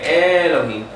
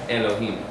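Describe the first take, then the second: First: The first vowel is drawn out long. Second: The first vowel is very short and quick. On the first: The speaker calls it wrong. "You don't say Elohim" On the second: The speaker calls it right. "It's quick. It's fast"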